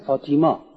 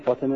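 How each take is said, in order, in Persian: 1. اسم با مصوت بلند 'ee' وسطش گفته میشه. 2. اسم با مصوت وسط کوتاه گفته میشه. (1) "میگن فاطیما" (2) "اینا نمیتونن بگن فاطمه"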